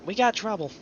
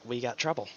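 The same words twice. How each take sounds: First: Sudden high alarmed call; shocked. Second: Said in the usual way. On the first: Real, not acted. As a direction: blurt it out in alarm. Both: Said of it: "'cause I'm in shock".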